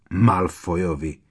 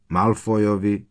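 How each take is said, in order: First: Slow, weighty "Malfoyovi" with falling end; emphatic. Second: Said in the usual way. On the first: A narrator's reading. Ron cuts in naming the Malfoys: slow emphatic "Malfoyovi". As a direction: lean hard on "Malfoyovi", drawn out. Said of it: "ozval se Ron najednou tak důrazně".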